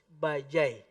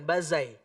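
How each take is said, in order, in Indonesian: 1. Konsonan di tengah adalah bunyi j. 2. Konsonan di tengah adalah bunyi z. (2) "Bukan bazai"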